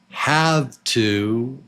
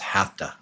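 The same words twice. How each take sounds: First: Both words are said fully and separately. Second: The words are reduced into one short word.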